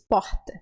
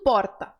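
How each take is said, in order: First: The R is breathy, northern Brazilian style. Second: The R is a tap, southern Brazilian style.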